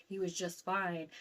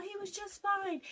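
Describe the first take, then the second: First: Said in the usual way. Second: "He was just fine" said much higher in panicked disbelief; "He was just fine" pitched up high, still reeling; shocked disbelief. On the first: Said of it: "as I said". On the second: Retold or imitated. Daughter insisting to police that dad was fine, high disbelief. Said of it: "as I said, "He was just fine".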